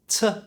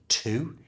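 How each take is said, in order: First: The word has a reduced schwa vowel. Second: The word has a full vowel. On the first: "so that becomes t" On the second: "the O at the end of to"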